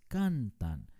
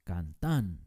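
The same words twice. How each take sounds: First: The stress is on the first syllable. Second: The stress is on the last syllable. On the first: The speaker calls it right. "es cantan. Es una palabra grave" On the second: The speaker calls it wrong. "No se dice cantan, ¿verdad? Porque eso sería una palabra aguda"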